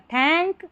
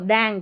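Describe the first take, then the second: First: The word begins with an aspirated 't' sound. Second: The word begins with a 'd' sound. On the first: It means thanks. The speaker calls it right. "टी एच को थ पढ़ा जा रहा है" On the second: It has no meaning. The speaker calls it wrong. "दैंक तो कुछ होता नहीं"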